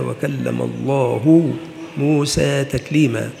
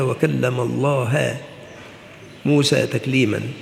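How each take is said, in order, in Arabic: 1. ينتهي اسم الله بحركة الضمة "u". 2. ينتهي اسم الله بحركة الفتحة "a". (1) "قوله تعالى" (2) "فجعلها"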